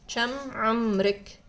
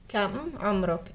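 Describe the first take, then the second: First: It is said in a Gulf Arabic accent. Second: It is said in Standard (book) Arabic.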